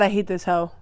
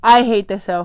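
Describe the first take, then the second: First: Said in the usual way. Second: Loud fed-up repeat; mock outrage; louder repeat. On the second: Real, not acted. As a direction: say it again, louder.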